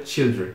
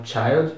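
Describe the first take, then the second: First: Put-on "children" with a short I, CHIL-dren; plural pronunciation. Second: Put-on "child" with an AI vowel, CHAILD; singular pronunciation. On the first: Teacher contrasts plural for students, I sound in "children". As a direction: say "children" with I in place of AI. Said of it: "vira o som de I mesmo". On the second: Teacher contrasts singular for students, AI sound in "child". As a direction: say "child" to rhyme with mild. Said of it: "não se pronuncia mais child". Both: Shown as a demonstration.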